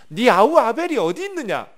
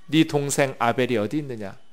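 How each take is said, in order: First: 아벨이 pushed up and out loud, 네 아우 아벨이 어디 있느냐 as a demand; pressing divine question. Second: Said in the usual way. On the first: Acted. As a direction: ask it louder, like God pressing for a confession. God's question repeated, stressed. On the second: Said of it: "다음 구 절을 보겠습니다".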